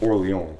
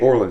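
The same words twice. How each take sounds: First: The name is said with a French-style pronunciation. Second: The name is said with an English-style pronunciation. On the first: "how you're supposed to" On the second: "Just say Orleans. I would have accepted that"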